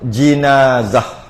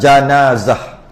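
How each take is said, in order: First: The first vowel is an i sound. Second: The first vowel is an a sound. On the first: "Atau baris bawah" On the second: "dengan jimnya baris atas"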